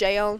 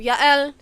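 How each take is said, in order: First: The name begins with a J sound. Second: The name begins with a Y sound. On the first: "it's often pronounced Jael" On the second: "I'm going with the Hebrew pronunciation because J's in the Hebrew are actually Y's"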